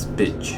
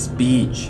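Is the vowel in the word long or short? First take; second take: short; long. First: The vowel is short and clipped. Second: The vowel is long and extended. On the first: "the short one is speech" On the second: "for the long I sound is speech"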